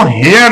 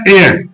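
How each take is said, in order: First: हेयर with the H sounded; wrong pronunciation. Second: ए as in 'air', no H; silent H. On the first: Teacher shows pupils the mistake, हेयर with a sounded H. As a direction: say हेयर with an audible h, like 'hair'. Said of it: "इसको हेयर नहीं कहेंगे". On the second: Teacher shows pupils how heir sounds, ए with silent H. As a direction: say ए starting straight on the vowel. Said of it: "pronounce होता है ए". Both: Shown as a demonstration.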